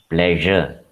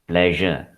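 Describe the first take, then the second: Both takes have the same delivery.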